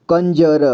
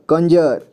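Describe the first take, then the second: First: कंजर split by letter as "kan-ja-ra"; कंजर read piece by piece; sounded out. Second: Said in the usual way. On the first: Shown as a demonstration. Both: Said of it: "तो इसे पढ़ेंगे".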